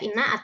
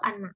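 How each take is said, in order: First: The word begins with an 'i' vowel. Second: The word begins with an 'a' vowel. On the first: "boleh dibaca inna atau anna" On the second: "boleh dibaca inna atau anna"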